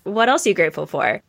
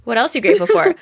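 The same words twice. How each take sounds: First: Said in the usual way. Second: Put-on higher and louder, coaxing a child; aunt coaxing her niece, higher and louder; eager prompting. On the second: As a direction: push the question up brightly to the kid. Aunt asks niece repeatedly.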